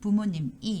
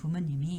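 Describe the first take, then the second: First: There is a break before the last syllable. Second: The final consonant runs into the last syllable. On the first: The speaker calls it wrong. "부모님 이 이렇게 보다는" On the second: The speaker calls it right. "부모님이 이렇게 연음을 하고"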